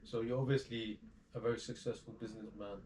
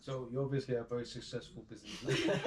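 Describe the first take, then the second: First: Said in the usual way. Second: Trying to stay straight but laughing; smile-broken question; laughing through it. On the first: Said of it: "Let me say that". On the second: Real, not acted. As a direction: question cut with giggles. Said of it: "I don't know why I laugh".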